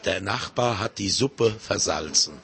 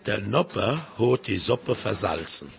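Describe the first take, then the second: First: It is said in standard High German. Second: It is said in Silesian dialect. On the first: "Auf Hochdeutsch" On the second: "Sagen Sie etwas auf Schlesisch?"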